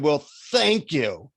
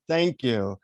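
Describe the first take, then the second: First: Slow, sarcastic mock thanks; sneering. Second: Understated, sincere thanks; heartfelt. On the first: Annoyed seeker thanking the guru, sneering. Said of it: "I sneered and I said". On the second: Retold or imitated. Grateful traveller finding clean water, heartfelt thanks. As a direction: say it simply, from the heart. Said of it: "really feeling my heart for five seconds".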